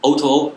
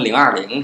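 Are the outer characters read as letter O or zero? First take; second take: letter O; zero. First: The outer characters are read as the letter O. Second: The outer characters are read as the number zero. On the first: The speaker calls it right. "对" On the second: The speaker calls it wrong. "好多人给读成020"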